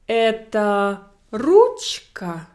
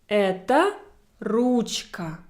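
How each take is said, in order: First: It is said with question intonation. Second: It is said with statement intonation. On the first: It asks whether this is a pen. "how I will pronounce this general question, whether it's a pen" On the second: It states that this is a pen. "And my statement"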